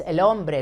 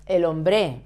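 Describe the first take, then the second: First: EL HOMBRE stressed on HOM, HOM-bre; stress on penultimate syllable. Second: EL HOMBRE mis-stressed on the final BRE, hom-BRE; stress on last syllable. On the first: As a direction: put the weight on the first syllable of HOMBRE. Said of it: "stress the penultimate syllable". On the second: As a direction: move the weight to the end of HOMBRE. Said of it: "It's not el hombre". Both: Shown as a demonstration.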